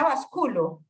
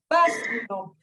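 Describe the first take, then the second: First: The stress is on the second syllable. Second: The stress is on the first syllable. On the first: The speaker calls it wrong. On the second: The speaker calls it right.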